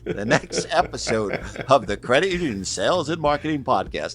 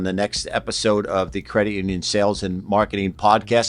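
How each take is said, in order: First: It is said in a put-on radio announcer voice. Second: It is said in an ordinary speaking voice.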